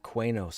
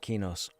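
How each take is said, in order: First: The name begins with a kw sound. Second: The name begins with a plain k sound. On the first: The speaker calls it wrong. "we used to call it Quanos all the time because of the Q" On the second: The speaker calls it right. "So I started saying it as Kinos"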